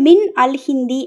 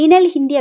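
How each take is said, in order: First: The first two words are said separately. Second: The first two words are run together. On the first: The speaker calls it wrong. "மின் அல் ஹிந்தி அப்டின்னு படிக்கிறது கன்வீனியன்ட்டா இல்ல" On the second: The speaker calls it right. "மினல் ஹிந்தி அப்டின்னு படிக்கும்போது ஈஸியா தெரியுது"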